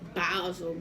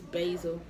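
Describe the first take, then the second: First: The word is pronounced in an exaggerated way. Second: The word is pronounced in a plain way. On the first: This is how someone else says it. The speaker calls it wrong. "I know she said basil" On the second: This is the dictionary pronunciation. The speaker calls it right. "but it's basil"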